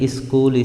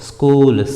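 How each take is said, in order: First: An 'i' vowel is added before the s. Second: The word starts directly with the s sound. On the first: The speaker calls it wrong. "ಇಲ್ಲಿ ಇಸ್ಕೂಲ್ ಇಸ್ತ್ರಿ ಹೇಳಬಾರ್ದು" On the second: The speaker calls it right. "ಸ್ಕೂಲ್ ಸ್ತ್ರೀ ಅಂತ ಹೇಳಬೇಕು"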